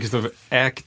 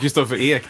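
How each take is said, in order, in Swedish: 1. Efternamnet har en öppen ä-vokal. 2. Efternamnet har en sluten e-vokal. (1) "det blir" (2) "Jag heter Kristoffer Ek"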